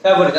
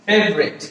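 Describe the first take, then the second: First: ফেভারিট in three syllables, "fe-bo-rit"; common mispronunciation. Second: ফেভারিট squeezed to "fev-rit"; correct pronunciation. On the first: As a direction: sound the middle vowel in ফেভারিট. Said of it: "আসলে শব্দটা ফেভারিট না". (ভুল উচ্চারণে ফেভারিট, "ফে-ভা-রিট") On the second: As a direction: drop the middle vowel of ফেভারিট, fev-rit. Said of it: "আসলে শব্দটা হচ্ছে কি". (শুদ্ধ উচ্চারণে ফেভারিট, "ফেভ-রিট") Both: Shown as a demonstration.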